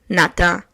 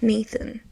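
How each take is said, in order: First: The name is said with a French accent. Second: The name is said with an English accent. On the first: The name sounds boring and plain. The speaker calls it wrong. "when you say Nathan with a French accent" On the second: The name sounds chic and elegant. The speaker calls it right. "But in English, I feel like it's better"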